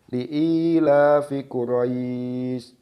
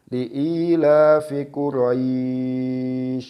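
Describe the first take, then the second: First: The 'ai' in Quraish is held briefly. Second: The 'ai' in Quraish is held long. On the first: "membaca mat lain dengan dua harokat" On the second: "membaca mat lain dengan empat harokat"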